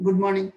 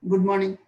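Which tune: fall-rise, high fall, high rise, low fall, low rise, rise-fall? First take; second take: low fall; low fall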